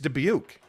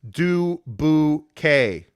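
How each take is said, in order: First: The name ends with a 'buke' sound. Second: The name ends with a 'bouquet' sound. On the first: Locals say it this way. The speaker calls it right. "It's Dubuque, bro" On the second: Outsiders say it this way to make fun. The speaker calls it wrong. "people get pissed when outsiders make fun and pronounce it as du bouquet"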